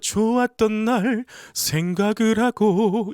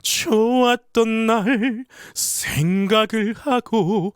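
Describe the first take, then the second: First: The phrase is delivered evenly without a marked accent. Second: The phrase is delivered with a clear, strong accent. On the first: The speaker calls it wrong. "이게 아니라" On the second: The speaker calls it right. "어디가 강세인지 어디를 강조를 해서 메시지를 전하고 싶은지 정확하게 표현을 합니다"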